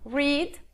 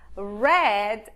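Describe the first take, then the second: First: The word does not sound like 'red'. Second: The word sounds just like 'red'. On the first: It is the base form of the verb. "o infinitivo ou a forma básica" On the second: It is the past tense of the verb. "no passado, você só pronuncia read ... como se você fosse falar da cor vermelha, red"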